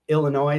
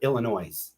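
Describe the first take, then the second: First: The word ends without an S sound. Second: The word ends with an added S sound.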